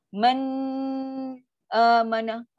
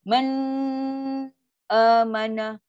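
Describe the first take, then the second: First: The sound breaks apart between the words. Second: The sound breaks apart between the words.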